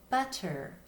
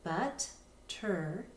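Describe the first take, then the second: First: Said in the usual way. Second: But-ter said slowly as two separate syllables, but and ter; split into syllables. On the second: Shown as a demonstration. Teacher showing students the syllables, slow split. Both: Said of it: "we could read it as but-ter".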